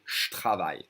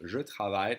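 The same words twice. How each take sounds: First: «je travaille» squeezed to shtravaille; real spoken French. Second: «je travaille» with je fully sounded; as read. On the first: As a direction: drop the E in «je travaille», J becomes sh. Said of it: "people will really say". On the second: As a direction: read out «je travaille» in two clear words. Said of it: "that's how you read it". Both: Shown as a demonstration.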